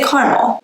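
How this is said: It is said in a Texan country accent.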